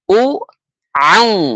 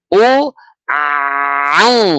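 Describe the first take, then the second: First: It is said at a normal pace. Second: It is said slowly, drawn out.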